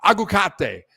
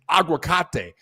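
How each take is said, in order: First: "Aguacate" again as "ah-gwa-KAH-teh", a bit louder and firmer; Spanish word repeated. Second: "aguacate" said as "ah-gwa-KAH-teh"; Spanish word. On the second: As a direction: demonstrate "aguacate" in Spanish, clearly. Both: Shown as a demonstration. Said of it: "That's how you say avocado in Spanish".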